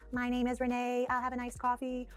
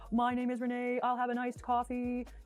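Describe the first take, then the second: First: The resonance is bright, from the front of the face. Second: The resonance is dark, from the back of the throat. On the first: "then bright" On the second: "then dark"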